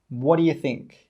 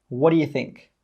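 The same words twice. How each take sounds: The two takes are said the same way.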